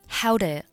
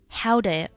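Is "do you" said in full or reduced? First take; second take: reduced; reduced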